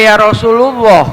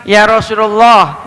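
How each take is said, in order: First: RASULULLAH read with "u" after the L: Rasulu-llah; wrong vowel reading. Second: RASULULLAH read with an "a" after the L: Rasulallah; fathah reading. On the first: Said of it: "nggak boleh". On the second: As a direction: say "Rasulullah" as Rasu-LA-llah. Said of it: "dibacanya pakai fathah nih". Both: Shown as a demonstration.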